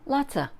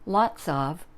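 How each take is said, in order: First: The words run together into one reduced form. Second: Both words are said fully and separately.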